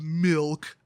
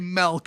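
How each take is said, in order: First: The word is said with a standard accent. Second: The word is said with a Wisconsin accent. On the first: "instead of milk" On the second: "A lot of us folks in Wisconsin say milk"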